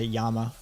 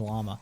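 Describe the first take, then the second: First: The name begins with a Y sound. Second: The name begins with an L sound. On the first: The speaker calls it right. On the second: The speaker calls it wrong.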